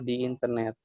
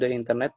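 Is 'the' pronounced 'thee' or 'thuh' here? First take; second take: thee; thuh. First: The word 'the' is said as 'thee'. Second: The word 'the' is said with a short 'thuh'. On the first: "tapi yang lebih sering itu adalah di internet" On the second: "kalau teman-teman mau bilang the internet bisa"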